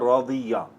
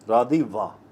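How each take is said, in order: First: The consonant before the final vowel is y. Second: The consonant before the final vowel is w. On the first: This is the form actually used in Arabic. "Arabic language इस वाव को या से बदल देती है" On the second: This is the underlying form built from the root. "वजन है फाइला और ये बनता है रादी वा"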